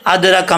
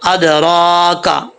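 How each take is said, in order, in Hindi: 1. र के बाद वाला स्वर जल्दी में और छोटा है। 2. र के बाद वाला स्वर खिंचा हुआ, लंबा है। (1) "ऐसे नहीं पढ़ना जल्दी में" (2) "इसको खींचेंगे"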